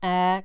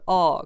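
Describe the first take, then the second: First: The vowel is said the Parisian way. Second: The vowel is said the Berry regional way. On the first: "comme à Paris" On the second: "comme dans le Berry"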